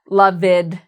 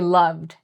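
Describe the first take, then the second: First: The ending is split off from the word. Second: The ending is blended smoothly into the word. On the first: The speaker calls it wrong. "we don't say" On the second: The speaker calls it right. "we say"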